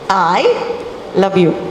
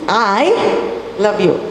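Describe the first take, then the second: First: The stress falls on the word I. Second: The same.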